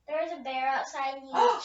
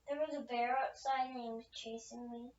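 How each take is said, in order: First: It is said more loudly. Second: It is said at normal volume.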